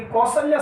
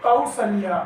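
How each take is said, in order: First: कौशल्या said as ko-salya; plain o in the first syllable of कौशल्या; single o vowel. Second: कौशल्या said as kau-salya; au diphthong. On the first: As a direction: start कौशल्या with ko, no glide. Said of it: "अशुद्ध है". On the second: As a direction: glide ka-u at the start of कौशल्या. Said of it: "इसका शुद्ध रूप हो जाएगा". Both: Shown as a demonstration.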